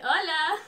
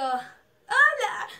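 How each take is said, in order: First: Louder, slightly high hola; re-enacted upbeat hello; idol's reply. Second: Loud, high hola; re-enacted starstruck greeting; excited fan greeting. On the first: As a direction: imitate the idol greeting you back. Idol answers the fan's hello. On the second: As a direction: blurt out a high, loud hello to your idol. Excited fan greets her idol.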